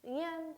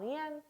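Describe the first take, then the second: First: 응이엔 higher, as one smooth syllable; Vietnamese Nguyễn. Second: 응이엔 as one sound, not split; Vietnamese Nguyễn. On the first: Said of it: "하나의 발음처럼". (한 단어처럼 이어서 응이엔) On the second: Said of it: "딱딱 끊어서 발음하는 게 아니라". (끊지 않고 한 단어처럼 응이엔) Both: Shown as a demonstration. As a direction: glide 응이엔 into one word.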